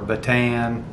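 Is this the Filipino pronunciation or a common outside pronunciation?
outside. It is said the way outsiders commonly say it. "You probably have heard before pronounced"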